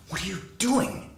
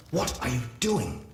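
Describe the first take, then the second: First: Pitched much higher, a mild inner shriek; mock inner scream. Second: Said in the usual way. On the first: A narrator's reading. His own inner voice crying out at him, much higher. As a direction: jump way up as the panicking voice in his head. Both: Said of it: "My own voice screamed in my head".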